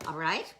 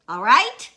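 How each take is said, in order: First: Said in the usual way. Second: All right? pushed much louder and higher; a forceful, raised All right?; insistent repeat. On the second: Acted. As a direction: demand an answer with All right?.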